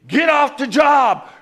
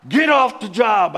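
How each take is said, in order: First: Much higher, louder and slow, barking an order; commanding shout. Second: Repeated command. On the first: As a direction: yell him off the site. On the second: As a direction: order it again, still forceful. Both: Retold or imitated. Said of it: "the guy's commanding me".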